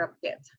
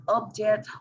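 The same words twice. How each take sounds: First: "object" stressed on JECT; stress on second syllable. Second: "object" stressed on OB; stress on first syllable. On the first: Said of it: "or in the second". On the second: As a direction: say "object" as OB-ject. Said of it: "whether the stress is on the first". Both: Shown as a demonstration.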